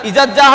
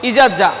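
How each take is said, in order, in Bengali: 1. গ্লটাল ক্যাচ বাদ পড়ে; শব্দ দুটো একসাথে মিশে যায়। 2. গ্লটাল ক্যাচ বাদ পড়ে; শব্দ দুটো একসাথে মিশে যায়।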